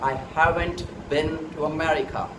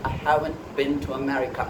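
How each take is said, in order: First: The T at the end of haven't is pronounced. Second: The T at the end of haven't is dropped.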